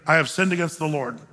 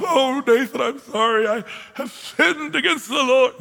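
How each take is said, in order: First: Said in the usual way. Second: Hammed-up high wailing confession; mock sobbing. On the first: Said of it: "No emotions, just". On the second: David confessing to Nathan, mock sobbing. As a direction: blubber it out, pitched up and drawn out. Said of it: "Does he sob".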